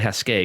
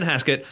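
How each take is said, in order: First: The name is said with a French-style pronunciation. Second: The name is said with a plain English pronunciation. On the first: The speaker calls it wrong. "I always want to say Haskett because it looks like it should be French" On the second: The speaker calls it right. "But no"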